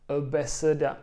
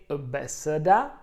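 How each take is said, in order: The two takes are said the same way.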